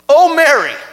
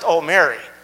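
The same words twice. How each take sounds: First: It sounds shocked, as if seeing death arrive. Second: It sounds like a casual, ordinary greeting.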